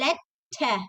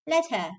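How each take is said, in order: First: The double T is held and stressed. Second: The double T is passed over quickly. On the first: "they don't say letter" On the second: "they say letter"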